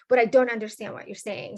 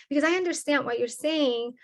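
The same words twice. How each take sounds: First: A mild contrastive push on "don't understand"; stress on don't. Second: A mild push on "I" in "I understand"; stress on I. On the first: Student quoted asking the teacher, light stress on don't. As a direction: lean on "don't" a bit louder. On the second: Student quoted asking the teacher, light stress on I. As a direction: lean lightly on I, slightly higher. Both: Retold or imitated. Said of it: "the students will come to me after class and ask".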